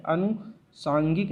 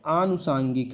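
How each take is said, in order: First: अनुसांगिक with a short opening "a"; wrong short first vowel. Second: आनुसांगिक with a drawn-out opening "aa"; long first vowel. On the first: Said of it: "आनुसांगिक है". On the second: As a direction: open आनुसांगिक on a long "aah". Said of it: "अनुसांगिक नहीं है". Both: Shown as a demonstration.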